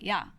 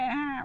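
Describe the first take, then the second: First: It is said sharply and aggressively. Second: It is said lightly and teasingly. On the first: It challenges the other person right away. "that's you're you're confrontational, like off the bat" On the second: It is friendly teasing between friends. "You could just say it like that, but that's again usually between friends"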